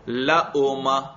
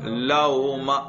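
First: The middle sound is a full glottal stop. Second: The middle sound falls between glottal stop and w. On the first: "اس کو ذرا حمزہ کے ساتھ پڑھو" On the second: "نہ پورا واو ہو نہ حمزہ ہو"

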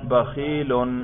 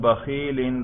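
First: The word ends in the sound -un. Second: The word ends in the sound -in. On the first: The word is in the nominative case. "اس کے رفع پر ہم تلفظ کر رہے ہیں" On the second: The word is in the genitive case. "جر پہ تلفظ کریں"

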